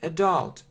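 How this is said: It is said with an American English pronunciation. "American English"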